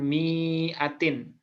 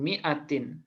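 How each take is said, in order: First: The first vowel is said long. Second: The first vowel is said short. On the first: The speaker calls it wrong. "bukan mi'atin. Nah, itu keliru ya" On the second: The speaker calls it right. "mi-nya pendek ini"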